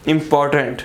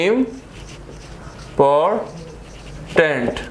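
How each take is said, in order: First: Said in the usual way. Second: important very slowly as इम, पॉर, tent; syllable by syllable. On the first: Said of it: "three syllable". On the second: Shown as a demonstration. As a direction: leave long silences between the three syllables of important. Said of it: "three syllable word".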